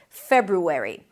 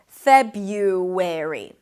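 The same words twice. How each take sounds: First: The first R is pronounced after the B. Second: The first R is dropped; a Y sound follows. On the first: "then ru, an R sound and a tense U" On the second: "drop, actually, the first R and pronounce it as Feb-u, with a Y instead"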